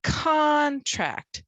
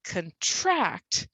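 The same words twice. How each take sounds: First: "Contract" with CON high, loud and long; first-syllable stress. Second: "Contract" as quick schwa cun, then long TRACT; second-syllable stress. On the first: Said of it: "We're gonna punch it". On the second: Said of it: "said with a schwa sound". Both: Shown as a demonstration.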